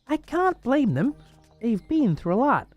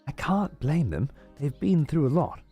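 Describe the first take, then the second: First: It is spoken in an American accent. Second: It is spoken in a non-American accent. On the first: The speaker calls it right. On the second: The speaker calls it wrong.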